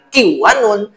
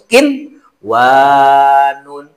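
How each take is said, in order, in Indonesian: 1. Bunyi n menyatu dengan w setelahnya. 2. Bunyi n diucapkan dengan jelas sebelum w. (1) "Membacanya jangan kiwanun" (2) "tapi harus kinwanun"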